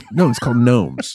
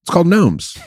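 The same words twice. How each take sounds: First: Said in the usual way. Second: Gnomes lifted and louder; stress on Gnomes. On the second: Shown as a demonstration. Correcting his friend's joke title, Gnomes stressed. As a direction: hit the word Gnomes firmly.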